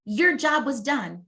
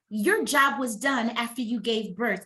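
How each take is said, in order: First: "your job was done" slowed, leaning hard on "your"; emphatic slow repeat of "your job was done"; slow, weighted restatement. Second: Said in the usual way. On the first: Shown as a demonstration. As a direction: hand it down slowly, landing on "your".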